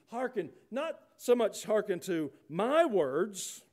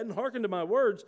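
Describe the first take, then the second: First: Slow, with "my" leaned on and raised; preacher slowly singling out "my" in "my words"; stress on MY. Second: Said in the usual way. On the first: Shown as a demonstration. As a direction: draw out "my words" at a high pitch. Contrasts whose words are to be heard.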